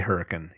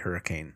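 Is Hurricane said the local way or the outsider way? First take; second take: local; outsider. First: The town name is said the local way. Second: The town name is said the outsider way. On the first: The speaker is from that area. The speaker calls it right. "if you're from that area, you say Hurricane" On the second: The speaker is not from that area. The speaker calls it wrong. "You don't say Hurricane"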